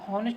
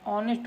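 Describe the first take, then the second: First: The word begins with an h sound. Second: The word begins with a vowel sound. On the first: The speaker calls it wrong. "हॉनेस्ट नहीं पढ़ा जाता" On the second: The speaker calls it right. "उसको हम ऑनेस्ट पढ़ेंगे"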